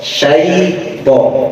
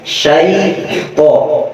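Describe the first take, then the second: The two takes are said the same way.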